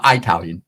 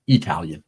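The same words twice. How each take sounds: First: "Italian" opened with an "eye" sound; long-I mispronunciation. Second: Said in the usual way. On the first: Shown as a demonstration. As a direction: say "Italian" as eye-TAL-yun. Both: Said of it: "not Italian".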